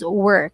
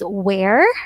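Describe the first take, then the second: First: The vowel sounds like the one in 'her'. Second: The vowel sounds like the one in 'hair'. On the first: The speaker calls it right. "This is only pronounced as were" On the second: The speaker calls it wrong. "We do not pronounce this as where"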